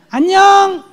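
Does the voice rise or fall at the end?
rise. The voice rises sharply at the end.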